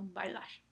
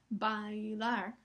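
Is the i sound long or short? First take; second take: short; long. First: The i is short, gliding into the a. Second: The i is long, in a separate syllable. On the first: The speaker calls it right. "sino bailar. La I se escucha más corta" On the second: The speaker calls it wrong. "No es bailar"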